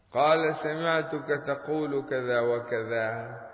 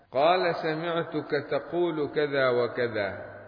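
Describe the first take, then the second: Both takes have the same delivery.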